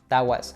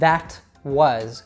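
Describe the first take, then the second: First: The T in 'that' is dropped. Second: The T in 'that' is clearly pronounced. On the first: "That T seems to disappear altogether" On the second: "Instead of saying"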